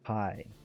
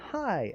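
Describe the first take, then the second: First: It sounds bitter and full of resentment. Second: It sounds warm and politely pleased. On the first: Seeing you has ruined my day. "I hate the fact that I got to see you today. My day is ruined" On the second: It is nice to meet you. "as in, "Oh, it's good to see you. I, pleasure to meet you,""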